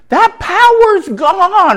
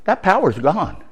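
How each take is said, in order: First: Triumphant. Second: Said in the usual way. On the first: Acted. High slow second take.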